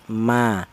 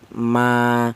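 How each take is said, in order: First: The vowel is held for one short beat. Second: The vowel is held for two beats. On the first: "satu harokat satu ketukan pendek" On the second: "Kalau untuk matobi'i dua harokat"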